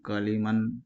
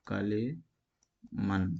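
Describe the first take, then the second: First: Said in the usual way. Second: کلیمن stretched very slowly, syllable by syllable; slow sounding out. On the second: Shown as a demonstration. Teacher spelling the word out for students, very slow. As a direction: drag out کلیمن so each sound is heard. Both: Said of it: "جیسے کہ".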